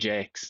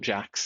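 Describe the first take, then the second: First: The vowel is long, rhyming with 'makes'. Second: The vowel is short, rhyming with 'tax'. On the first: The speaker calls it right. "his name is also Jakes" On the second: The speaker calls it wrong. "not Jax, even though it's spelled like Jax"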